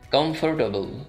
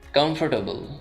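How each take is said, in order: Both takes have the same delivery.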